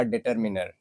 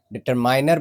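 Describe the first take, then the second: First: Determiner with short "min"; correct determiner pronunciation. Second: Determiner with "mine" in it; mispronounced determiner. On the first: Teacher giving learners the right form, determiner pronounced with -min-. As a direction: say -miner as -minner in determiner. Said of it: "जो सही pronunciation होगा वो होगा". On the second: Teacher quoting some people's wrong form, determiner said as "determiner" with -mine-. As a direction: say -miner at the end of determiner. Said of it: "लेकिन डिटरमाइनर नहीं". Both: Shown as a demonstration.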